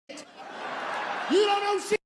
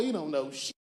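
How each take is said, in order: First: Much higher, slow, stretched yell; drawn-out high shout. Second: Said in the usual way. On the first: Shown as a demonstration. Comic scolds the young man, slow and shouting high. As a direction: belt it out long and high. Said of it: "repeated take". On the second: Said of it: "repeat with shout".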